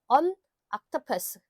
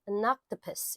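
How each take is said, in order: First: There is a break between the two words. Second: The two words run together without a break. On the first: The speaker calls it wrong. "끊어서 발음하시는 게 아니라" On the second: The speaker calls it right. "이렇게 발음이 돼요"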